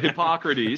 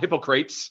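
First: It is said as four syllables, hip-pock-ra-tees. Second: It is said like the two words hippo crates. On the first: The speaker calls it right. "but Hippocrates" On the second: The speaker calls it wrong. "Not Hippocrates"

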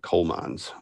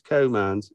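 First: The L in 'coal' is clearly pronounced. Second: The L in 'coal' is dropped entirely. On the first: The speaker calls it wrong. "we've also been mispronouncing the coal fields and the coal mines" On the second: The speaker calls it right. "they don't pronounce the L. So it's co-mine"

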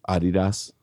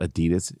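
First: It is said the German way. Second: It is said the usual English way. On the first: The speaker calls it right. "It's Adidas. ... anybody from Europe will say it same" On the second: The speaker calls it wrong. "Adidas is not Adidas"

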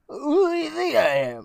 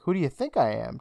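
First: It is said in a whiny, near-crying put-on voice. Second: It is said in the speaker's normal voice.

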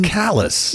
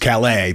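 First: It is said like the English word 'callus'. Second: It is said the French way, ending in 'lay'. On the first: This is the name of the town in Maine. "not in Maine. It's Callus" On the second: This is the name of the town in France. "The real Callus in France is Calais"

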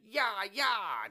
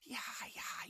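First: It is called out in a full voice. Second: It is said in a whisper.

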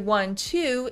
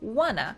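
First: It is said as two full separate words. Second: It is reduced and linked into one word. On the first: "instead of saying I want to" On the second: "in English it becomes wanna"

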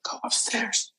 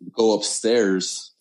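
First: It is said in a whisper. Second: It is said in a normal voice.

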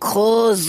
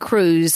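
First: The name is said with a throaty German pronunciation. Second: The name is said with an English pronunciation.

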